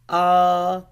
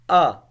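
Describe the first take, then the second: First: The pitch stays high and level. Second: The pitch falls sharply from high to low. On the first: "constant straight, so the sound will be ah" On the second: "fourth tone which is like going directly declining"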